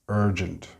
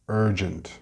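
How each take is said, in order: The two takes are said the same way.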